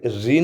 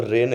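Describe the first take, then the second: First: रीन with a long ee vowel; wrong reading. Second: रेन with a long ay vowel; correct reading. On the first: Teacher warns students off a misreading, voicing रीन with long ee. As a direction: say रीन to rhyme with "seen". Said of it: "यहाँ पर ये रीन नहीं लिखा है". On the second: Teacher gives students the right reading, voicing रेन with ay. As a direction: say रेन to rhyme with "lane". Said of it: "यहाँ पर रेन लिखा है". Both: Shown as a demonstration.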